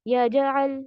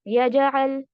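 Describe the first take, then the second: The two takes are said the same way.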